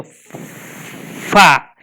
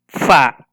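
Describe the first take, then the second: First: "fa" with a long, drawn-out f; sounded out. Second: "fa" with the f running straight into a; sounds joined. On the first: Teacher pronouncing each letter's sound, "fa" sounded out slowly. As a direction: hold the f, then open into the a of "fa". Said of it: "Pronuncio la A, dice". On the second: Teacher showing two sounds together, "fa" said joined up. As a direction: say "fa" as one firm syllable after a short f. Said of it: "dos sonidos". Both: Shown as a demonstration.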